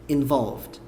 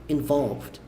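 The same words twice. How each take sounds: No difference in how they are said.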